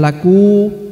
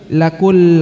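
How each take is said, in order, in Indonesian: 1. Kata ini berakhir dengan vokal u terbuka. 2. Vokal itu langsung bertemu dengan bunyi l. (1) "bukan laku" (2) "tapi lakul langsung masuk ya"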